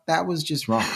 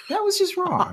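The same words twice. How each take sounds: First: Said in the usual way. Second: Squeaky-high mock dismay; scandalised, pitched way up; mock outrage. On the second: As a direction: repeat it in a comic falsetto. Repeats mock scolding, much higher.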